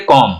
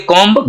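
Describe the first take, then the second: First: कॉम ending cleanly on M; silent B. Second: कॉम्ब with a released B after the M; sounded B. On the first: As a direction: say कॉम as "kom", with no B. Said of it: "हम इसका pronunciation करेंगे". (कॉम को म पर खत्म करें, ब silent) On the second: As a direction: say कॉम्ब as "kom-b". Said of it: "गलत प्रोनंसिएशन है". (कॉम्ब के अंत का ब बोलें) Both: Shown as a demonstration.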